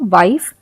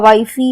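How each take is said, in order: First: The word ends on the f sound. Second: The word ends with an extra 'ee' vowel. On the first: The speaker calls it right. "हम इसे पढ़ते हैं वाइफ" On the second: The speaker calls it wrong. "हम ऐसा हम इसे नहीं पढ़ते हैं"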